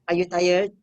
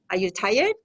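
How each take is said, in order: First: The voice falls at the end. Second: The voice rises at the end. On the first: The speaker calls it wrong. "We don't ask" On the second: The speaker calls it right. "Goes up"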